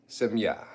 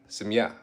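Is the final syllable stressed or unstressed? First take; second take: stressed; stressed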